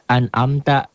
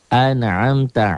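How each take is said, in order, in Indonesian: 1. Konsonan di tengah itu hamzah biasa. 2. Konsonan di tengah itu ain yang berat dari tenggorokan. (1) "orang banyak baca an'amta gitu" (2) "Satu alif, satu ain"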